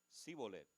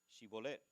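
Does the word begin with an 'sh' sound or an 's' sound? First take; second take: s; sh. First: The word begins with an 's' sound. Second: The word begins with an 'sh' sound. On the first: The speaker calls it wrong. "no podían pronunciarla correctamente" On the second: The speaker calls it right. "di pues la palabra Shibolet"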